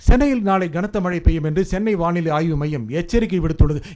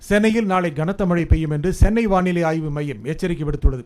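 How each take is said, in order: First: The emphasis falls on the word for warning. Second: The emphasis falls on the Chennai weather centre. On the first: The point is that a warning was issued. "எச்சரிக்கை விடுத்தான்" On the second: The point is who issued the warning. "ஓ, சென்னையில் இருக்கிற வானிலை ஆய்வு மையம்டா"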